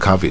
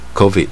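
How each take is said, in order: First: The first syllable uses a different vowel. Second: The first syllable is a full 'co' sound. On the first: The speaker calls it wrong. "你不要念COVID" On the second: The speaker calls it right. "一般讲是那个COVID"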